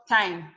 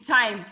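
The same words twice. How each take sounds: First: The word starts with a th sound. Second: The word starts with a plain t sound. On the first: The speaker calls it wrong. "and not time" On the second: The speaker calls it right. "The seasoning called time is time"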